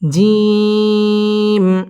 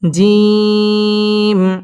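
First: The vowel is drawn out long. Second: The same.

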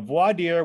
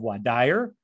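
First: It is said in a general, non-Southern accent. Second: It is said in a Southern American accent.

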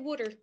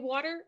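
First: It is said in a New Jersey accent. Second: It is said in a standard accent.

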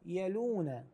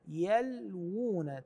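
First: No w sound is heard before the long u. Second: A w sound is heard before the long u. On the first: The speaker calls it wrong. "بعض الناس يقرأها يلون، هذه غير سليمة" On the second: The speaker calls it right. "الصحيح أن نقرأ يلوون"

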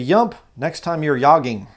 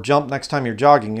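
First: The first word begins with a Y sound. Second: The first word begins with a J sound.

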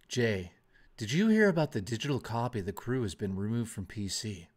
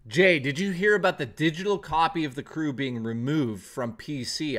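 First: It is said in an Alan Wake impression. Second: It is said in the speaker's natural voice.

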